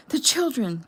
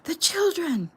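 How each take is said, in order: First: Loud, high panicked scream; a sudden shout of alarm. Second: Much higher, louder panicked shriek; a rising, frantic shriek; desperate scream. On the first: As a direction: cry out for the children in terror. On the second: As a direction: scream it as if your heart is tearing. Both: A narrator's reading. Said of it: "Jeffy screamed".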